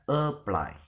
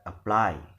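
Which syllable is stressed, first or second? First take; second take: first; second. First: The stress is on the first syllable. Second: The stress is on the second syllable. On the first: The speaker calls it wrong. "not apply" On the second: The speaker calls it right. "but apply"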